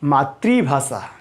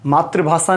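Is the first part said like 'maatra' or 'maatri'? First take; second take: maatri; maatra. First: The first part sounds like 'maatri', with an ri. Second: The first part sounds like 'maatra', without an ri. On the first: The speaker calls it right. "ये है मातृ" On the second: The speaker calls it wrong. "नहीं"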